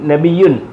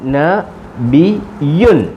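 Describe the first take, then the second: First: The syllables are joined into one smooth word. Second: The syllables are said separately, one by one.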